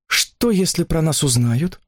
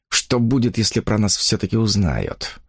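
First: Slow, higher-pitched question, rising at the end; anxious question. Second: Understated inner worry, falling at the end; worried thought. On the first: Girl asks her companion if they'll be found out, anxious question. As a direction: ask it slowly in a higher voice. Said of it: "спросила она". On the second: Man silently worrying they will be found out, understated worry. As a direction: think it over with a touch of unease. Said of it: "с беспокойством думал он". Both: A narrator's reading.

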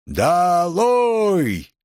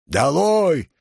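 First: High, drawn-out crowd call; long jeering yell. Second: Higher, rounded jeering call; heckler's yell. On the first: Students shouting Nicole down, long drawn-out yell. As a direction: stretch both syllables into a long jeer. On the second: Student shouting Nicole down, a contained yell. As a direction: call it out from the crowd. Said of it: "Эти вопли неслись со всех сторон". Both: A narrator's reading.

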